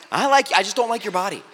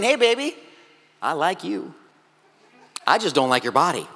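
First: Said in the usual way. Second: Soft, low smooth-talker voice; a lightly voiced guy sweet-talking a girl; cheesy pickup line. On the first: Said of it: "that's what you're saying". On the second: Man sweet-talks a girl he wants to date, mock smooth. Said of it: "that's like you walking up to her and saying".

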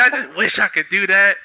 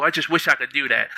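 First: Laughing mimicry of friends. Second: Said in the usual way. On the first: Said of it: "They're like". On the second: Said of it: "They'd be like".

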